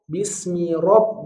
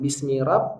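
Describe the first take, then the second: First: The r sound is heavy and thick. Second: The r sound is light and thin. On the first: The speaker calls it right. "huruf ro tebal" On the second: The speaker calls it wrong.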